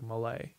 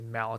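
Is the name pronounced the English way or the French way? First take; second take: French; English. First: The name is pronounced the French way. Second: The name is pronounced the English way. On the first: The name is said as it is in its own language. "in French, it's like mallet" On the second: The name is deliberately anglicized as a subtle dig. "they would say mallet"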